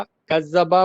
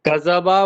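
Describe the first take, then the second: First: Kaz-zaba, z held double in कज़्ज़बा; doubled z. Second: Kazaba, one short z in कज़्ज़बा; single z. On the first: Student contrasting two meanings, कज़्ज़बा said with doubled z. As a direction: lean on the long zz of कज़्ज़बा. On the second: Student contrasting two meanings, कज़्ज़बा said with single z. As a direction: say कज़्ज़बा lightly with an undoubled z. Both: Shown as a demonstration. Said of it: "What is the difference of me-, meaning?".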